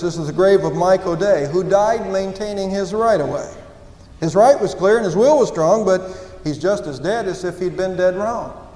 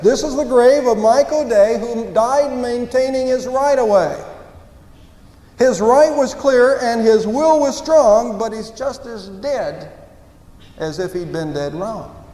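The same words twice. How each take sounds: First: It is said fast. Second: It is said slowly.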